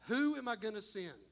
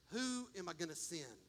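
First: Said in the usual way. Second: Softer, lower, almost to yourself; hushed call. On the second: Acted. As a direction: ask it softly, lower. Voicing God softly then plainly.

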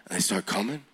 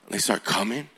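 No difference in how they are said.

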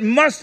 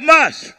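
First: Said in the usual way. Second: Must called out loud and higher; preacher leads the shout: Must; shouted word. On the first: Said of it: "everybody shout". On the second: Shown as a demonstration. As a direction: shout Must for the crowd to echo. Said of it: "Everybody shout".

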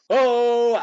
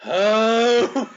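First: Loud, high "Oh!"; catchphrase shout. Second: Long, loud, high "Oh!"; crowd's answering shout. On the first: Co-host mimics Duggan by the end of the match, loud catchphrase shout. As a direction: holler it like a wrestler working the crowd. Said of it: "he's going". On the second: Co-host mimics the crowd responding to Duggan, drawn-out answering shout. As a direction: echo the wrestler as a whole crowd would. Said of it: "and the crowd is going". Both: Retold or imitated.

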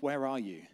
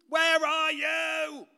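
First: Said in the usual way. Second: Very high, drawn-out yell; imitated child's loud singsong call; child shouting searchingly. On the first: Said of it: "isn't an angry question". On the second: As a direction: holler it slowly like a kid hunting for dad. Child yelling through the house, acted.

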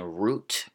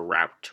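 First: "route" said like root; root pronunciation. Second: "route" said rowt; rout pronunciation. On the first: Podcaster offering two options, "route" as root. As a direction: say "route" to rhyme with boot. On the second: Podcaster offering two options, "route" as rowt. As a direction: say "route" to rhyme with out. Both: Shown as a demonstration. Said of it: "And then route or route".

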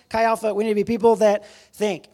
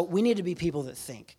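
First: Loud, higher call to the crowd; rally the room with a raised voice; punchy, loud rallying cry. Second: Said in the usual way. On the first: Real, not acted. Rallies the crowd, repeating the line.

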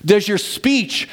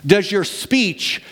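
Both takes have the same delivery.

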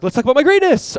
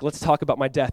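First: Loud, high mock-eager boast. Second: Said in the usual way. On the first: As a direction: blurt it out high, like a glory-hungry disciple. Disciples voiced boasting over Jesus.

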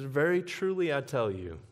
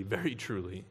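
First: Said in the usual way. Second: "very" leaned on, softer and lower; quiet weight on "very"; stress on very. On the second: Shown as a demonstration. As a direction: press the word "very" gently. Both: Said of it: "not just truly".

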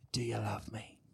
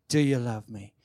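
First: Whispered "Do you love me?", low and breathy, no voice. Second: Said in the usual way. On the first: Shown as a demonstration. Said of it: "whispered take, then voiced take". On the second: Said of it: "voiced take after the whisper".

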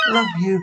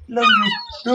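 First: Said in the usual way. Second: Very high squeaky love you; tongue flutter zoom. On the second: Pretend. High squeaky farewell take.

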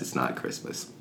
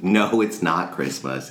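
First: Soft, lower, breathy whisper under the breath; whispered aside. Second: Said in the usual way. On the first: Retold or imitated. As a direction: whisper it to yourself. Father answering his son.

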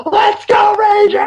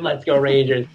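First: High, loud scream to the crowd; full-voiced, high-pitched cheer; retold scream. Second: Said in the usual way. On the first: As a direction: scream it out like a rallying cry. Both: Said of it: "I scream".

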